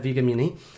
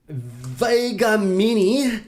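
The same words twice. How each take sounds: First: The name is tossed off casually, barely emphasized. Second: The name is said with plain, deliberate emphasis. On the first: The speaker calls it right. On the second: The speaker calls it wrong.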